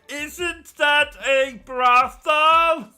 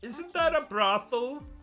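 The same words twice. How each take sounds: First: It is said loudly. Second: It is said quietly.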